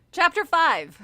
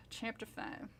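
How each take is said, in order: First: Loud, bold announcer read; loud announcement. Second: Murmured, soft and low; quiet, low aside. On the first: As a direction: announce the chapter proudly. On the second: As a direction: say it under your breath. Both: Shown as a demonstration.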